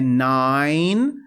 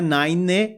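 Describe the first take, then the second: First: No final vowel sound is pronounced. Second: A final vowel sound is pronounced. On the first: The speaker calls it right. "o E não sai" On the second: The speaker calls it wrong. "não é nine"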